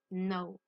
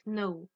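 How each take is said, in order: First: No, K silent; correct know. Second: Know with the K sounded; wrong silent K. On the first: Teacher giving the right way to say know. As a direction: say no with no K sound, slowly. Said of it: "On dit no". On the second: Teacher showing the wrong way to say know. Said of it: "On ne prononce pas le K". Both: Shown as a demonstration.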